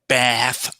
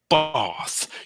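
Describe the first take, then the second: First: It has a North American vowel. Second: It has a South African vowel.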